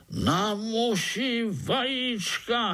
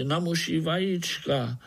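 First: Very high, drawn-out exclamation; incredulous echo. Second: Higher-pitched matter-of-fact explaining; lightly voiced spider. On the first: Overseer echoes the spider's words about eggs, incredulous. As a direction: repeat it slowly in high-pitched disbelief. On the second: Spider tells the ants of Artur's craving, explaining. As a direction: explain it innocently, slightly raised in pitch. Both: A narrator's reading.

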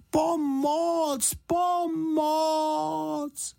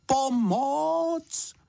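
First: Very high, long-held cries for help; loud call for help. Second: High, drawn-out cry for help; tentative call for help. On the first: Bear stuck in the bath calling properly for help, loud high cry. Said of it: "potom pořádně nahlas". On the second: Bear in the bath first trying to call, tentative high call. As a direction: call out high, holding the vowels. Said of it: "Nejprve jen potichu". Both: A narrator's reading.

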